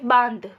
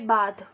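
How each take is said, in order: First: The vowel is said with nasal sound. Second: The vowel is said without nasal sound. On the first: "ध्वनि मुंह के साथ साथ नाक से भी निकल रही है" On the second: "शब्द दिया हुआ है"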